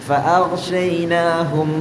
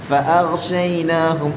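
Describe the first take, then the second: No difference in how they are said.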